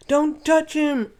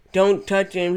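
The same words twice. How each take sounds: First: High character voice. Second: Said in the usual way. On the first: Retold or imitated. Same line redone in a character voice.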